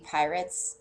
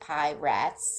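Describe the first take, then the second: First: It is said as the ordinary word pirates. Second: It is said as two words, pie rats. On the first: This is the intended name. "supposed to be pirates" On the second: This is a joke reading of the spelling. "it's spelled like pie rats, so I say it like that as a joke"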